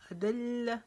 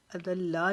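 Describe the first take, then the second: First: अदल्ला with doubled ल held and a short ला, higher; अदल्ला, the ल stopped hard and the ending kept short; अदल्ला recited with the doubled ल; correct pronunciation. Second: अदल्ला with the final ला wrongly stretched; अदल्ला said the wrong way, the ला dragged out; अदल्ला with a long ला; wrong pronunciation. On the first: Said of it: "तशदीद के साथ लाम को रुकावट से पढ़ेंगे लेकिन लंबा नहीं करेंगे". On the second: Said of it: "अदल्ला नहीं पढ़ेंगे". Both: Shown as a demonstration.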